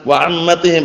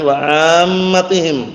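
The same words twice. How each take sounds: First: The first vowel is short, like 'am'. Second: The first vowel is drawn out long. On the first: It means aunts. The speaker calls it wrong. "Bacanya keliru dengan wa ammatihim" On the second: It means the common people. The speaker calls it right. "tapi wa ammatihim"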